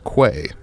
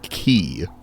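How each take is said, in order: First: It is said as 'kway', with a w sound. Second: It is said as 'key', with no w sound. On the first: The speaker calls it wrong. "I'd wager most of you read that as quay" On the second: The speaker calls it right. "it is in fact pronounced key"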